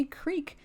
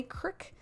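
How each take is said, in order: First: "creek" with a long ee; standard "creek". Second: "crick" with a short i; regional "crick". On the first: Showing how others say it, long-vowel "creek". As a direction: say "creek" to rhyme with week, drawn out. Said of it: "some say creek". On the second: Showing how some Americans say creek, short-vowel "crick". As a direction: say "crick" to rhyme with brick. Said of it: "Some Americans say crick". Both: Shown as a demonstration.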